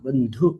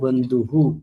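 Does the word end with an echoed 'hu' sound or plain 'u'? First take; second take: plain u; echoed hu. First: The word ends plainly without an added hu. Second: The word ends with an echoed hu sound. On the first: "അദ്ദേഹം ബന്ധു എന്നാണ് പറയാ" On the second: "ആത്മൈവഹ്യാത്മനോ ബന്ധുഹു എന്നെ ചൊല്ലിയാൽ മതി"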